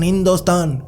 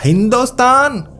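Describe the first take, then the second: First: The word is said softly, close and quiet. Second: The word is said loudly, with a questioning tone. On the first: "थोड़ा कान में कहा" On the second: "जोर से बोला"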